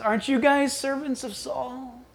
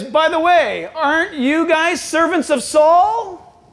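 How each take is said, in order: First: Soft, needling question; quiet taunt. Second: High, drawn-out mock question; taunting Goliath. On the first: Retold or imitated. The enemy to Saul's soldiers, quiet taunt. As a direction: slip the taunt in softly. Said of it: "And the enemy says". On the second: Goliath to Israel's army, drawn-out taunt. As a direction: stretch out the taunt with raised pitch. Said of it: "And Goliath says".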